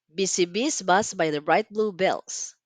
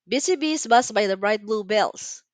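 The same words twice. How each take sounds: First: It is spoken at a medium pace. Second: It is spoken at a fast pace. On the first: "Let's say it a little bit faster" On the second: "Faster this time"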